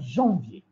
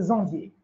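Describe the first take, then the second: First: Janvier begins with a 'j' sound. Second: Janvier begins with a 'z' sound. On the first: The speaker calls it right. "au lieu de dire" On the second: The speaker calls it wrong. "il y a le zézaïement"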